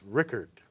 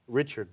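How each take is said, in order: First: The middle consonant is a hard 'k' sound. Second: The middle consonant is a soft 'ch' sound. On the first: The speaker calls it right. "but it's Rickert" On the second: The speaker calls it wrong. "I was thinking, even at home when I did this"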